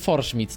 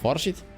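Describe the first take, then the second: First: The word is said with an m sound. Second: The word is said without an m sound. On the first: "ludzie mówili Forschmidt" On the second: "Może po prostu Forsheet?"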